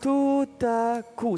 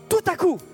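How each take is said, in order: First: It is said flatly, with little energy. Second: It is said forcefully, with sudden energy. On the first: The suddenness of the event does not come across. The speaker calls it wrong. "Ça n'a pas un impact" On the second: The event feels sudden and striking. The speaker calls it right. "Non, tout à coup! Tu vois la différence?"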